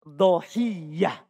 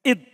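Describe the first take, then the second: First: The opening glottal stop is dropped; vowel a follows. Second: The first syllable has the vowel i. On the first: "Hilang hamzanya. Di fathah dotnya" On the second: "Boleh dikasro juga. Dibaca id"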